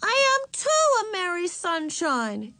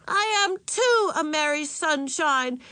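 First: Put-on very high, stubborn child voice; insistent little girl. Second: Put-on high, slow, angry little-girl protest; angry shouting child. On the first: Little sister sent to her room, still insisting. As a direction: insist at the top of a small child's range. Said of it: "insisted Ramona". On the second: Little sister scowling back at mother, angry shout. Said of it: "she shouted angrily". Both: A narrator's reading.

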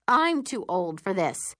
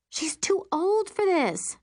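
First: Said in the usual way. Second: Put-on high, slow whine on "She's too old for this"; exasperated complaint. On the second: A narrator's reading. Stepmother complaining about her daughter, exasperated. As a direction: drag it out, pitched up and fed up.

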